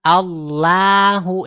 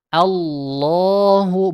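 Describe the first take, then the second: First: Allahu clipped short; wrong short Allahu. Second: Allahu drawn out very slowly; long Allahu. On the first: (Allahu pendek salah) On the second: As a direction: hold the long vowel in Allahu. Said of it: "tetap dibaca dengan panjang". (Allahu dibaca panjang) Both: Shown as a demonstration.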